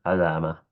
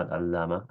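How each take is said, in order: First: علامة with a single, undoubled l; light lam. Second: العلامة with a long, doubled l; doubled lam. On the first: Teacher correcting the reading, single lam in علامة. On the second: Teacher showing what it is not, doubled lam in العلامة. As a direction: lean on the l as in al-'allamah, العلامة. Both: Shown as a demonstration. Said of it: "بتخفيف اللام".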